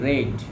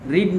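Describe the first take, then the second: First: The vowel is short, like 'red'. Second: The vowel is long, like 'reed'. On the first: The speaker calls it right. "উচ্চারণটা রেড" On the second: The speaker calls it wrong. "রিড না এটা"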